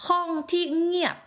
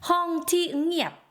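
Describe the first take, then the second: No difference in how they are said.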